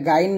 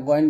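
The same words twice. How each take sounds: First: Thin গাইন with an open 'aa'; wrong light ghayn. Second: Thick গইন with a rounded vowel; correct heavy ghayn. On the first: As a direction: say গাইন lightly, not rounded. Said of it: "এটা গাইন না". (গাইন পাতলা করে, ভুল উচ্চারণ) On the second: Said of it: "এটা গইন বলবেন". (গইন মোটা করে) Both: Shown as a demonstration.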